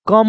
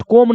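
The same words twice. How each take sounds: First: "कम" with a short uh vowel; short vowel in "कम", no long o; exception pronunciation. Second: "कोम" with a long o; rule-based mispronunciation. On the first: Teacher giving the real pronunciation, short vowel. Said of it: "इसका क्या होता है". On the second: Teacher ruling out the regular reading, long o. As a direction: stretch the o in "कोम". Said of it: "कोम ना होकर". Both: Shown as a demonstration.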